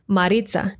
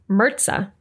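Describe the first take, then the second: First: The name is said in a Colombian accent. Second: The name is said in a heavy Midwestern accent. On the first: "pronounce my name with their Colombian accents" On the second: "has a heavy Midwestern accent, so she pronounces my name like"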